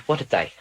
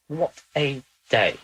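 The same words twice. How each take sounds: First: Said in the usual way. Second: Slow, drawn-out "What a day"; slow weary repeat. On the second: Real, not acted. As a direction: stretch "What a day" out slowly, tired. Weary sigh after session.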